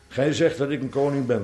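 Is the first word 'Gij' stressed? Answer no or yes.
no. The first word 'Gij' is not stressed. It sounds like agreeing to the claim. The speaker calls it wrong. "wij lezen dat met de verkeerde klemtoon"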